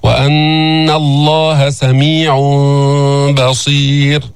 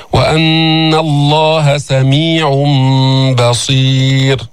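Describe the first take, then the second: First: Slow chant, hum before "بصير" with lips slightly apart; wrong lip gap. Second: Slow chant, "سميع بصير" joined by a hummed m; sung, recite with long madd and held ghunna; sung, Quran recitation. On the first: Teacher showing how not to recite, open-lipped hum before "بصير". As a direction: recite it, leaving the m of "سميع بصير" unclosed. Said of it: "لا تقرأ هكذا". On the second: Teacher reciting an example, slow chant with iqlab into "بصير". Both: Shown as a demonstration.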